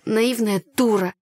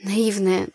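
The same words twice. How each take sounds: First: Slow, bitter, stressing дура; bitter self-reproach. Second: Said in the usual way. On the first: A narrator's reading. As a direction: scold yourself slowly, leaning on дура. (медленно, с горьким упрёком себе)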